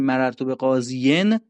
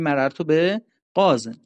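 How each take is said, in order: First: The last word ends with a full -iyin ending. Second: The last word ends with a short -in ending. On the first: The speaker calls it wrong. "به جای اینکه بگیم مررتو به قاضین" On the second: The speaker calls it right. "میگیم مررتو به قازن"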